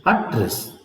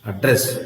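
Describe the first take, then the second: First: ADdress, weight on AD in "address"; stress on first syllable. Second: AdDRESS, weight on DRESS in "address"; stress on second syllable. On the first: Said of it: "stress on the first syllable". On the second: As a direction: lean on the last syllable of "address". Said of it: "stress on the second syllable". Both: Shown as a demonstration.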